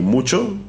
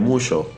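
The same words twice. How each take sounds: First: The middle consonant is a 'ch' sound. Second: The middle consonant is a 'sh' sound.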